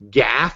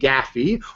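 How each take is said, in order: First: It rhymes with laugh, one short syllable. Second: It rhymes with taffy, two syllables. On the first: "as in laugh" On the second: "rhyme it with taffy"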